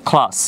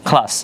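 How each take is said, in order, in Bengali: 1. প্রথম k ধ্বনিতে জোরালো শ্বাস আছে। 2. প্রথম k ধ্বনিতে জোরালো শ্বাস আছে।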